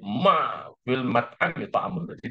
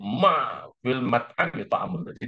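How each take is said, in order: First: The stress falls on the word ma. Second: The same.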